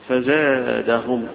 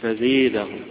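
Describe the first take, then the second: First: The long vowel is an open 'a' sound. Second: The long vowel is tilted toward an 'e' sound. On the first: "يفتحها الجمهور" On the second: "ويميلها ابن عامر"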